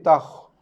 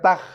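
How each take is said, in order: First: The kh sound is round with a slight echo. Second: The kh sound is thin without any echo. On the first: The speaker calls it right. "bunyi bulat sikit, bereko sikit" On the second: The speaker calls it wrong. "bukan takh"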